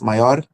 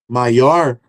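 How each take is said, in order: First: The R is a single quick tap. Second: The R is curled back, a retroflex sound. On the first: "aquele R rápido" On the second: "esse R retroflexo"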